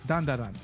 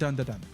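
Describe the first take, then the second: First: The vowels sound like the 'a' in cat. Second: The vowels sound like the 'u' in cup. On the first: The speaker calls it right. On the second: The speaker calls it wrong. "not dun da dun"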